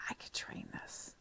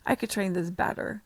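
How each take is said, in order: First: Whispered to herself; thinking aloud in class, whispered; inner whisper. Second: Said in the usual way. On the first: Retold or imitated. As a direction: whisper the thought under your breath. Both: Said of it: "I sit in there and I'm like".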